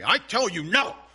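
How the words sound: It is said in an angry voice.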